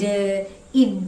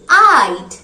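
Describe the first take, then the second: First: The vowel is a short 'i' sound. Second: The vowel is a long 'eye' sound. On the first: The speaker calls it wrong. "it's very wrong to say like" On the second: The speaker calls it right. "Simply I'd"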